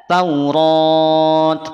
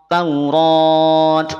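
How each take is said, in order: No difference in how they are said.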